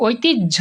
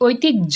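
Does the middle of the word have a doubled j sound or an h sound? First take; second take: doubled j; doubled j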